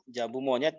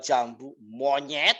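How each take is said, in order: First: The reply sounds friendly and pleasant. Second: The reply sounds rude and off-putting. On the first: The seller is being polite to the customer. The speaker calls it right. "Enak nggak dengernya?" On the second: The seller is being rude to the customer. The speaker calls it wrong. "Coba kalau dia rubah intonasinya"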